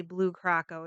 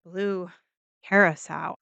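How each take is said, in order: First: Curacao in Blue Curacao said as "kuh-ROCK-oh"; wrong pronunciation. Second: Curacao in Blue Curacao said as "CARE-uh-sow", lower; attempted correct pronunciation. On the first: Explaining the debate over the drink, Curacao pronounced "kuh-ROCK-oh". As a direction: stress "ROCK" in the middle of Curacao. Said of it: "it's not really Blue Curacao". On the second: Correcting the drink's name, Curacao pronounced "CARE-uh-sow". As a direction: say Curacao carefully, ending in "sow" like "cow". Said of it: "I'm sure I'm saying it a little bit wrong". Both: Shown as a demonstration.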